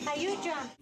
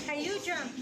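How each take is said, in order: Both takes have the same delivery.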